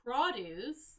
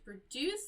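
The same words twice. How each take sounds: First: The stress is on the first syllable. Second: The stress is on the second syllable. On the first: Fruits and vegetables. "the syllable is on the first half of the word" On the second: To make something. "the syllable is on the second half of the word"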